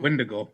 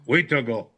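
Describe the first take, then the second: First: The name is said as Wendigo. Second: The name is said as Wheatago. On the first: This is how non-native people say it. The speaker calls it wrong. "A lot of people that aren't native call it" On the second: This is the Cree way to say it. The speaker calls it right. "Mom taught me Cree, ... That's how you say it"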